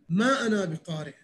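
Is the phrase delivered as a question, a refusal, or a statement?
refusal. It is said with a refusing, resistant tone. I do not want to read. "يعني ما أريد أقرأ"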